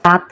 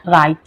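First: Said in the usual way. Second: রাইত with an i glide before the final t; Sylheti pronunciation. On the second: Shown as a demonstration. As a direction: say রাইত as "rait", Sylheti style. (রাইত সিলেটি উচ্চারণে, ই-ধ্বনি সহ) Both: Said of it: "রাত্রে আমরা সিলেটি ভাষায় কিতা কওয়া".

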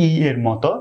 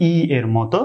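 No difference in how they are said.

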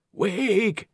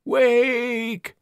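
First: High ghostly call; overlapping graveyard whispers. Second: Very high, rising cry; overlapping graveyard whispers. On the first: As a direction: spirits of the dead urging. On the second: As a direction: spirits of the dead crying out. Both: Acted. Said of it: "the dead whispered".

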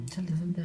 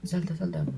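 First: "salta, salta" whispered with no voice; whispered urging. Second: Said in the usual way. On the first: Acted. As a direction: whisper "salta" twice to the character. Urging his character to jump.

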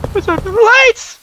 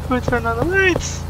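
First: High alarmed shout. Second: Said in the usual way. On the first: Real, not acted. Gamer noticing the lights, "Who turned on the lights?" shouted high. Repeated louder.

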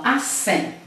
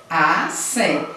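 First: Said in the usual way. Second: "acém" slowly, with a break between a and cém; split into syllables. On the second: Shown as a demonstration. Teacher shows pupil how to separate the word, syllable by syllable. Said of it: "aqui você separa assim".

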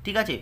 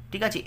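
The two takes are said the same way.

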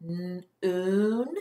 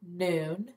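First: "N-oon" split into "n" then a long "oo"; segmented word. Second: Said in the usual way. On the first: Shown as a demonstration. Teacher splits the word for children to hear, segmented. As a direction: break "N-oon" apart to show the "oo" in it. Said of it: "Listen again". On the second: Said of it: "listen to me try one first".

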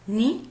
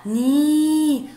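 First: Short "ن" said as a quick "ni"; short vowel. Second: "ني" held long as "niii"; long vowel. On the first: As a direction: cut the "i" on "ن" short. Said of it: "صوت قصير". ("ن" بصوت قصير مكسور) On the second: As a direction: stretch out the "i" in "ني". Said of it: "صوت طويل". ("ني" بصوت طويل ممدود) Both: Shown as a demonstration.

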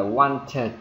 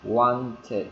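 First: "wanted" slowly as "want-tuh-tuh"; wrong doubled T. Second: "wanted" as two syllables, "wan-tid"; inserted -id ending. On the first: Teacher warning learners what not to say, doubled T. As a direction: release two separate Ts in "wanted", no -id. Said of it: "chứ không phải là". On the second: Teacher modelling the right form for learners, inserted -id. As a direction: slip a short vowel before the final D of "wanted". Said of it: "Chèn cái đi vào". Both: Shown as a demonstration.

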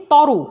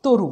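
First: তরু with open "aw" first vowel; as written. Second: তরু with closed "o" first vowel; pronounced with O. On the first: Teacher reading out the spelling, তরু with open aw. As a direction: say তরু as "taw-ru". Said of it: "আমরা লিখি তরু". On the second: Teacher answering own question, তরু with closed o. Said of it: "তয়ে ওকার". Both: Shown as a demonstration.

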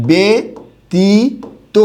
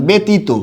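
First: ব্যতীত very slowly, "be ... ti ... to"; pronunciation demo. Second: Said in the usual way. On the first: Shown as a demonstration. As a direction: sound out ব্যতীত syllable by syllable with pauses. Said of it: "এরকম হবে উচ্চারণটা". (ব্যতীত খুব ধীরে "বে ... তী ... তো" উচ্চারণ) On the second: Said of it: "এরকম একটা শব্দ লিখলাম".

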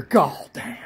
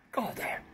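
First: Said in the usual way. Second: Barely voiced, far softer mutter; whispered aside. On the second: Real, not acted. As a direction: whisper it to yourself under your breath. Repeats the word under breath.

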